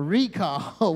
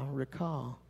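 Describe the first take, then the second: First: The stress is on the first syllable. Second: The stress is on the second syllable. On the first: It means a notice that comes in the mail. "we call it a what? A recall" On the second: It means to bring something back to mind. "I'm going to say I recall"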